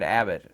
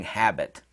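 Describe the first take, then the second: First: "Abbott", habit said without its h; dropped h. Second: "habit" with a clear initial h; h pronounced. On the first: Retold or imitated. Quoting the manager's word, "Abbott" with the h dropped. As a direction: mimic him saying "Abbott" with no h sound. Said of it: "couldn't say the word habit". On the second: Shown as a demonstration. Correcting the manager's word, "habit" with its h sounded. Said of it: "he meant to say shopping habit".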